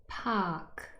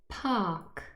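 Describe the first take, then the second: Both takes have the same delivery.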